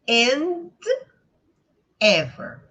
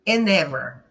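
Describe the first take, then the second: First: The two words are said separately. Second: The final consonant links into the next vowel.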